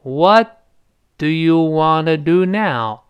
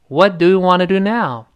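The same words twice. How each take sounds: First: It is said at a slow pace. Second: It is said at a quick pace.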